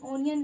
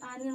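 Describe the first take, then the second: First: The first vowel is an 'o' sound. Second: The first vowel is an 'aa' sound. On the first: The speaker calls it wrong. "ओनियन नहीं" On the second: The speaker calls it right. "आ निकल रहा है"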